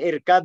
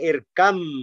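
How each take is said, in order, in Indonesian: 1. Kata itu diakhiri dengan bunyi b yang jelas. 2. Bunyi b menyatu menjadi bunyi m. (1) "Bukan irkab ma'ana, enggak" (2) "Bacaannya irkam"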